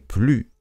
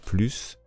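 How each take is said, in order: First: The final S sound is silent. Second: The final S sound is pronounced. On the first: "On ne dit pas le S" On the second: "Là, il faut dire le S"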